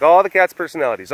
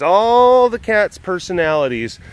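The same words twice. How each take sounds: First: Said in the usual way. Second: ALL stretched long, high and louder; stress on ALL. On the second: Real, not acted. Streamer widening the idea to every cat, ALL drawn out high. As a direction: draw out the word ALL, pitched up.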